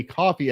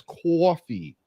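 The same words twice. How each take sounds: First: Said in the usual way. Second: Coffee drawn out as "kwoffee"; slow, rounded coffee with an added w; mocked mispronunciation. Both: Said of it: "when you say coffee as coffee".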